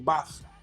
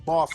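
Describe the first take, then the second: First: The vowel is short and clipped. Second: The vowel is long and drawn out. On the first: This is how people here say it. "We don't draw it out. It's quick fire" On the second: This is not how people here say it. "We don't say"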